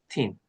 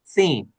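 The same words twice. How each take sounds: First: It begins with a hard 't'-like stop. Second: It begins with a soft 'th' sound.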